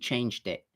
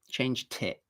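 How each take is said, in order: First: The t before 'it' has no puff of air. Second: The t before 'it' has a strong puff of air. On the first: The speaker calls it right. "So it's not aspirated. It's just changed it" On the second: The speaker calls it wrong. "I'm not saying changed tit"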